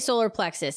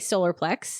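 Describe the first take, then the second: First: The word ends with a final 'us' syllable. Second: The word ends without the final 'us' syllable. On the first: "I always say solar plexus" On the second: "I don't say solar plex"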